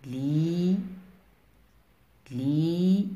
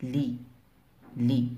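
First: "لي" with a stretched, rising ii; long vowel demo. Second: "لي" with a short, quick i; short vowel demo. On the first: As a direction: hold the i in "لي" long. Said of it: "لأن زمن نطقها طويل". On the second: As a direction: cut the i in "لي" short. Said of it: "لأن زمن نطقها قصير". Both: Shown as a demonstration.

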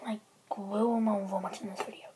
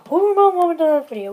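First: Said in the usual way. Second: Shouted high and fast; loud. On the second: Acted. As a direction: yell the question out fast. Repeats question, second time loud.

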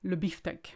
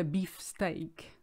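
First: "le beefsteak" said "biftek", run together in a French accent; French "le beefsteak" as "lə biftɛk"; French pronunciation. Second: "beef steak" said as two English words; English pronunciation. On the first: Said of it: "but we say le beefsteak". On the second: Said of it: "we should say". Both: Shown as a demonstration.

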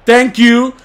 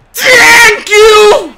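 First: Said in the usual way. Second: High wailing shout; crying shout. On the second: Real, not acted. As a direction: wail it out. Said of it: "repeated shouted".

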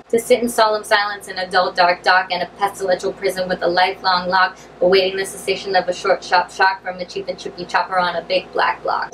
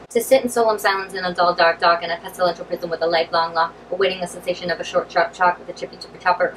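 First: Slow first take. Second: Rattled off fast, twister at speed; faster take. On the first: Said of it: "then you can gradually say them faster". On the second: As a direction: push the tongue twister fast, barely keeping up. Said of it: "gradually say them faster". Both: Shown as a demonstration.

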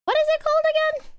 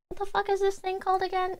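First: Much higher, fast, cartoonish squeak; squeaky silly voice. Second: Said in the usual way. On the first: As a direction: ask it in a tiny goofy voice. Sudden squeaky funny voice.

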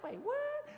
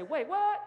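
First: What jumps very high in exaggerated disbelief; incredulous squeak. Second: Loud, rising wait-what in mock disbelief; surprised exclamation. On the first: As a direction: ham up the double take. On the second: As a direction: call it out like a startled congregation. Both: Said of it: "Everybody say".

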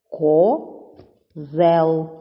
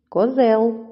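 First: "Козел" as Ко... зел, clear gap; split into syllables. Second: Said in the usual way. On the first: Shown as a demonstration. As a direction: say "Козел" in two separate syllables. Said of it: "Перший ко, другий зел". («Козел» по складах: Ко... зел) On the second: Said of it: "ділиться на два склади".

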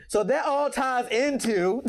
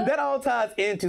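First: Laughing through the words, slower; breaking into laughter while starting the sentence. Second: Said in the usual way. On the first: Real, not acted. Guest explaining her path, laughing through it.

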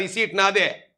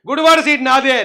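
First: Said in the usual way. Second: Gudivada punched louder, falling at the end; mock boast, Gudivada hit loud; stress on Gudivada. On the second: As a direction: lean hard on Gudivada, louder. Repeats claim with Gudivada emphasis.

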